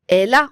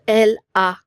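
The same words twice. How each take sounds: First: The L runs straight into the A. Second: The L and the A are kept apart. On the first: The speaker calls it right. "On va relier le L avec A" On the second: The speaker calls it wrong. "on va pas dire"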